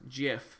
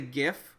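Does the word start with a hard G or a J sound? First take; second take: J sound; hard G. First: The word starts with a J sound. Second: The word starts with a hard G sound. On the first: "like J I F" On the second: "I say GIF"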